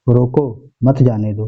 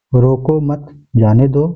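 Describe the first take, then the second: First: "रोको", pause, then "मत जाने दो" together; pause after रोको. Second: "रोको मत" together, pause, then "जाने दो"; pause after मत. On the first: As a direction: break the phrase right after रोको, before मत. ("रोको" के बाद विराम) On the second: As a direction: break the phrase right after मत, slowly. ("मत" के बाद विराम) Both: Shown as a demonstration. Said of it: "केवल चिन्ह का ही फर्क पड़ता है".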